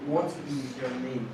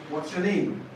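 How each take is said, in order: First: "What is your name" with IS separate, low and soft; uncontracted form. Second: "What's your name" with WHAT'S as one syllable; contracted form. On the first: Teacher showing what the examiner will not say, uncontracted. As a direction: say WHAT and IS as two words, quietly. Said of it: "The examiner will not say". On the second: Teacher quoting what the examiner would ask, contracted. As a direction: run WHAT and IS together as "what's". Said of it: "The examiner would ask you". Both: Shown as a demonstration.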